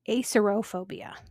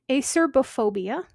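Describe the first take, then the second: First: No 'b' sound comes before 'phobia'. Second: A 'b' sound comes before 'phobia'. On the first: "A C E R O P H O B I A" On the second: "A C E R B O P H O B I A"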